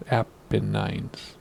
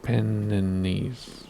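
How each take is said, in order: First: "Apennines" as APP-uh-nines; Apennines ending in "nines". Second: "Apennines" drawn out as uh-PEN-uh-neez; Apennines ending in "neez". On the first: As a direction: end "Apennines" on a long-I "nines". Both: Shown as a demonstration. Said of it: "Is it Apennines or Apennines?".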